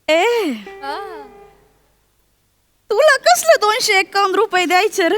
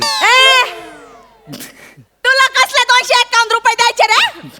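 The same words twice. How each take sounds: First: It is spoken in a soft voice. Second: It is spoken in a louder voice.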